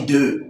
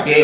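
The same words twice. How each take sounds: First: "deux" said with a rounded eu vowel; mock corrected pronunciation. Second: "des" said with an open è vowel; mock wrong pronunciation. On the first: Mimicked corrector gives the fix, "deux" with rounded eu. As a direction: say "deux" as a rounded "deu", the approved form. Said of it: "on dit deux". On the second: Mimicked corrector quotes the error, "des" with open è. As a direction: say "des" as an open "dè", the faulted form. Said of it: "On ne dit pas".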